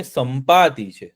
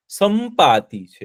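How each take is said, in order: First: સંપાતિ said slowly and clearly; slow name. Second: સંપાતિ drawn out very slowly; slower name. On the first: Storyteller spelling out the name સંપાતિ slowly. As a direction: stretch out સંપાતિ for the children. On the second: Repeating the name સંપાતિ slowly so children catch it. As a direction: say સંપાતિ syllable by syllable. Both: Shown as a demonstration. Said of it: "શું છે?".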